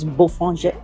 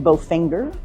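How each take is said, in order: First: The name is said with a French nasal vowel. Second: The name is read as English spelling suggests. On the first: This is how the name is actually said. The speaker calls it right. "but it's" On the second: This is how the written name seems to read. The speaker calls it wrong. "it looks like it should be"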